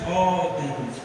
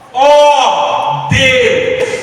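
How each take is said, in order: First: It is said flatly, without intensity. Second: It is said as an intense, fervent cry.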